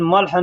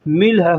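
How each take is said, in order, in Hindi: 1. पहला स्वर 'a' जैसा सुनाई देता है। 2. पहला स्वर 'i' जैसा सुनाई देता है। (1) "मल्ह नहीं होता है" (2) "मिल्ह होता है"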